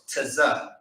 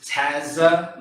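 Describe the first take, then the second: First: The t and z sounds are run together. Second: A vowel separates the t and z sounds. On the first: The speaker calls it right. "You say it together. You say it close" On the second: The speaker calls it wrong. "some brother may think that it says tazza. No"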